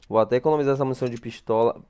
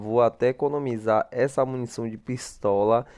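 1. A frase é falada rápido. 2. A frase é falada devagar.

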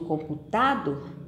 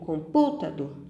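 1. A sílaba tônica é a terceira. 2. A sílaba tônica é a segunda. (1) "Eu digo computador? Não" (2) "Eu digo computador? Também não"

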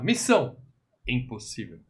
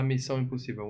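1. Uma pausa separa as duas palavras. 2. As duas palavras saem juntas, sem pausa. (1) "vamos falar Missão Impossível. Impossível é o nome da missão, não é um adjetivo" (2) "não vamos falar Missão Impossível"

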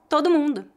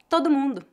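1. Os dois sons 'o' se fundem em um só. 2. Os dois sons 'o' se fundem em um só.

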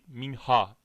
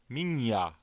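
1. Ortadaki ünsüz h sesidir. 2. Ortadaki ünsüz y sesidir. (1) "minha değil" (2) "Türkçedeki okunuşu bu şekildedir"

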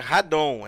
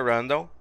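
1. O nome é pronunciado do jeito brasileiro. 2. O nome é pronunciado do jeito inglês. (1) "em português do Brasil é Radon" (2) "Em inglês é Random"

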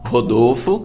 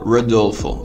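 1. O nome é dito com pronúncia portuguesa. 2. O nome é dito com pronúncia inglesa. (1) "em vez de eu falar Rodolfo" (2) "eu falar Rodolfo"

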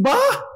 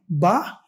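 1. Soa animado e alegremente surpreso. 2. Soa triste e consternado.

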